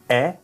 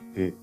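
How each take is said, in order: First: The vowel is open, with a wide mouth. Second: The vowel is closer, with a small mouth. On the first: "Aberto ... aqui eu vou ter a boca grande" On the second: "semi-aberto ... aqui eu vou ter a boca pequena"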